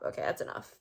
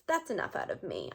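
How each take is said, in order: First: Muttered aside to herself; whispered self-hush. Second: Said in the usual way. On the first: Real, not acted. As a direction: whisper "that's enough" to yourself, breathy and unvoiced. Cutting herself off.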